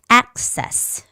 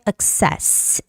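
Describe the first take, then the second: First: The stress is on the first syllable. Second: The stress is on the second syllable. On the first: The speaker calls it right. "The stress goes on the first vowel" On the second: The speaker calls it wrong. "Don't say access"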